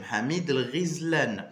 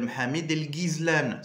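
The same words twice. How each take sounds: First: The gh is said like a French r. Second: The gh is said as a hard g. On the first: The speaker calls it right. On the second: The speaker calls it wrong. "Il y a beaucoup qui l'appellent"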